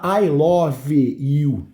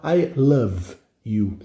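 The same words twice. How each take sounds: First: I love you with the e of love sounded, lo-ve; sounding out the silent e in love, the wrong way; wrong pronunciation. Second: I love you with love said as one syllable, luv, slowly; right pronunciation. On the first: Teacher showing students the wrong way to say it. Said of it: "você não fala". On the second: Teacher showing students the correct way, slowly. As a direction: silent e in love, said slow and clean. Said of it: "você fala". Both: Shown as a demonstration.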